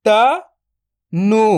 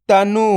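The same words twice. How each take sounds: First: "तनु" split into त, then नु, very slow; drawn-out breakdown of "तनु"; syllable by syllable. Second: Said in the usual way. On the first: Shown as a demonstration. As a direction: sound out त ... नु with a long gap. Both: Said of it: "तो मिलके बन जाएगा".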